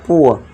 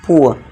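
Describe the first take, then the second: No difference in how they are said.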